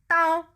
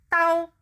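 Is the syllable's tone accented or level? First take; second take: level; level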